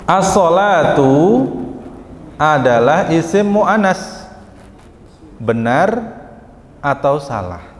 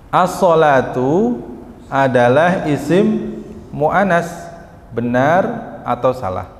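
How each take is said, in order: No difference in how they are said.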